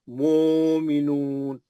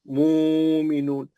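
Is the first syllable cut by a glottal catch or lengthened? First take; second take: lengthened; lengthened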